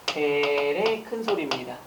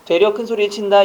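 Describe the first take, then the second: First: Slow, soft 되레 with a clear 레 ending; correct standard form. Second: 되려 said casually with a 려 ending; the familiar slip 되려, said at normal pace; everyday wrong form. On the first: Teacher to students, giving the standard 되레 slowly and softly. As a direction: say 되레 carefully and slowly, the right way. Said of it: "되려가 아니고 뭐가 돼야 돼요?". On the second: Teacher to students, showing the common 되려 in a casual voice. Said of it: "우리는 되레 큰 소리란 말 잘 안 쓰고". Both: Shown as a demonstration.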